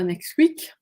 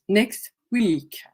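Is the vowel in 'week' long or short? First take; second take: short; long. First: The vowel in week is short. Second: The vowel in week is lengthened. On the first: The speaker calls it wrong. "c'est pas next week" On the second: The speaker calls it right. "c'est allongé"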